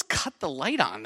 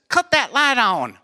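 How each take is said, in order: First: Said in the usual way. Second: High, twangy Southern mother-in-law; hammed-up Southern accent; thick Southern accent. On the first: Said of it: "What does". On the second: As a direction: mimic a Kentucky belle giving an order. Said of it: "also, when she says".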